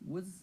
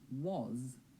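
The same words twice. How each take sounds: First: The vowel is reduced to a schwa. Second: The vowel is full, not reduced.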